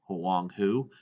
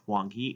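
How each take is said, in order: First: The name is said with a native final syllable. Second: The name is said with an anglicized final syllable. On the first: The speaker calls it right. "it's pronounced as Huanghu" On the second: The speaker calls it wrong. "not pronounced as Huanghe"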